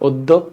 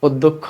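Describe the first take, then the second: Both takes have the same delivery.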